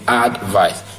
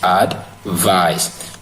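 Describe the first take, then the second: First: The stress is on the first syllable. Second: The stress is on the second syllable. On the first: It is the noun. "Advice is stressed in the first syllable" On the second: It is the verb. "advice is stressed in the second syllable"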